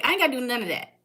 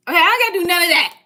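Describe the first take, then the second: First: Said in the usual way. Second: Louder, rapid-fire repeat for emphasis; emphatic fast repeat. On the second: Shown as a demonstration. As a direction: fire it off again, louder and faster.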